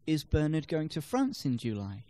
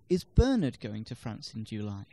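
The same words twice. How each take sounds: First: The stress falls on the word France. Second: The stress falls on the word Bernard. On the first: It questions where he is going. "No, he's going to Belgium" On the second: It questions who is going. "No, Zoe is"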